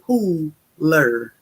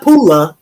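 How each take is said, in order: First: The name ends with a clear r sound. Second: The name ends in a vowel without an r. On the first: This is the proper name of the town. The speaker calls it right. "So it is Pooler" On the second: This is how the speaker habitually says it. The speaker calls it wrong. "Not Pula, as I always say"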